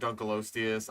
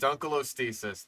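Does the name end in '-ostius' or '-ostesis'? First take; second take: -ostius; -ostesis. First: The name ends with an '-ostius' sound. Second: The name ends with an added '-ostesis' sound. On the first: The speaker calls it right. "is acceptable" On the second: The speaker calls it wrong. "That is a butchered pronunciation"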